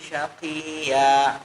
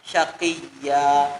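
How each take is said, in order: First: The doubled ya is softened and weak. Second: The doubled ya is pressed firmly and clearly. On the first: The speaker calls it wrong. "Kalau terlalu lembut" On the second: The speaker calls it right. "Padahal syaqiyya"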